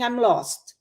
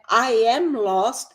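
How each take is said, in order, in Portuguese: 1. O am é reduzido e o m é engolido. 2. A palavra am é pronunciada totalmente.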